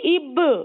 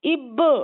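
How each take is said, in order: The two takes are said the same way.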